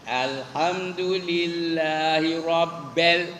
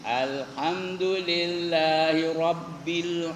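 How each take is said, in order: Both takes have the same delivery.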